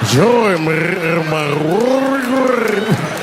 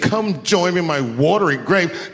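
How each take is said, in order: First: It is said with a rolling, gurgling throat. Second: It is said in a plain, ordinary voice.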